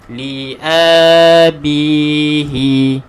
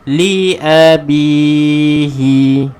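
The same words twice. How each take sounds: First: The vowel after the glottal stop is drawn out long. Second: The vowel after the glottal stop is kept short. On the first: The speaker calls it wrong. "janganlah kita baca hamzah ni dengan bacaan mad. ... Salah lah tuan-tuan dan puan-puan" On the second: The speaker calls it right. "kita tidak akan baca dia dengan panjang"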